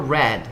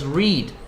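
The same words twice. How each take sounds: First: The vowel is short, like 'red'. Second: The vowel is long, like 'reed'. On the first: The speaker calls it right. "aquí se pronuncia más o menos como el color rojo, que es red" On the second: The speaker calls it wrong. "No es read"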